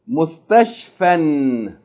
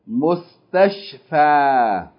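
First: The word ends with an n sound. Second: The word ends with a long a vowel. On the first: Reading continues after the word. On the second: Reading stops at the word.

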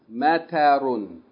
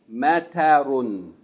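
Both takes have the same delivery.

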